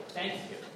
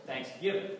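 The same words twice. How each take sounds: First: Thanksgiving with the weight on Thanks, rest light; stress on THANKS. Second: Thanksgiving with the weight on giving, Thanks light; stress on GIVING. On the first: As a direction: lean hard on Thanks in Thanksgiving. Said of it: "puts the emphasis on thanks". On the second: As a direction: push the second syllable of Thanksgiving. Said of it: "puts the emphasis on the second syllable". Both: Shown as a demonstration.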